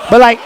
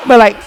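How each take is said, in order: Both takes have the same delivery.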